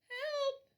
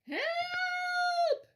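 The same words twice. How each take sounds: First: It is said a little louder. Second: It is wailed loudly and long.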